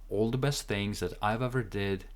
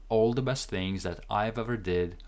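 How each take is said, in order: Both takes have the same delivery.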